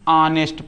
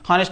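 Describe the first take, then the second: First: The word begins with a vowel sound. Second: The word begins with an h sound. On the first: The speaker calls it right. "ऑनेस्ट पढ़ते हैं" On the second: The speaker calls it wrong. "हॉनेस्ट नहीं"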